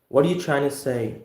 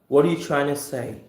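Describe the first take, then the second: First: The words 'trying to' blend, sounding like 'China'. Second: The words 'trying to' blend, sounding like 'China'.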